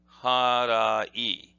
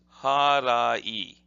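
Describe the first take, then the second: The two takes are said the same way.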